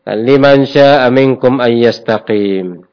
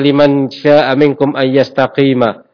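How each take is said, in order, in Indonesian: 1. Kata terakhir berakhir pada konsonan m. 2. Kata terakhir berakhir dengan vokal a pendek. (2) "jarang dibaca"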